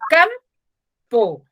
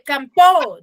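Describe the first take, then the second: First: The stress is on the first syllable. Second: The stress is on the second syllable. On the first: The speaker calls it right. "Cam, ¿cierto? Porque yo digo campo, bajo mi tono de voz" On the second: The speaker calls it wrong. "¿digo así? No"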